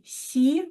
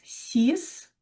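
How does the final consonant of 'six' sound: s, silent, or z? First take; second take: silent; s. First: The word ends with no final consonant. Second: The word ends with an s sound. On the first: A noun starting with a consonant follows. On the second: The number stands alone.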